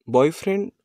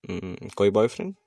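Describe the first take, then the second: First: High rising disbelieving question; incredulous echo. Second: Said in the usual way. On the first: A narrator's reading. Girl echoing his boyfriend question in disbelief. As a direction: throw the word back at him, amazed.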